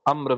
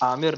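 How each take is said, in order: First: It is a short single syllable ending in r. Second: It has a long first vowel and two syllables. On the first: The speaker calls it right. "नाम सही से प्रोनाउंस किया करो" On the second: The speaker calls it wrong. "आमिर नहीं है"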